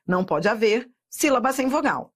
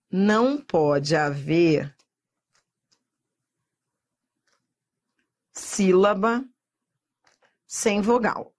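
First: Said in the usual way. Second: Very slow, long pauses between chunks; mantra ditado. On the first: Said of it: "Você já sabe isso". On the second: Shown as a demonstration. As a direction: dictate it piece by piece for learners to repeat. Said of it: "O primeiro mantra é". (mantra ditado bem devagar, com pausas longas)

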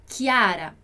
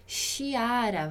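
First: "Chiara" said as "kiara"; hard K sound. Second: "Chiara" mispronounced as "shiara"; wrong SH sound. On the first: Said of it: "vai ser sempre". ("Chiara" com som de qui) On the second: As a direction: start "Chiara" with sh, not k. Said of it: "não vai ser". ("Chiara" errado, com som de xi) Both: Shown as a demonstration.

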